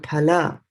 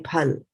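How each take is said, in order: First: The final vowel is pronounced softly. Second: The final vowel is dropped entirely. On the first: The speaker calls it right. "I'm saying phala" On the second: The speaker calls it wrong. "I did not say phal"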